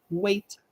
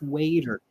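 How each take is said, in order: First: It is said in a British accent. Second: It is said in an American accent. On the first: "In British English, they say waiter" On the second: "In American English"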